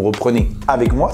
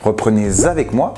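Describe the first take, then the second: First: No linking sound joins reprenez to avec. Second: A Z sound links reprenez to avec.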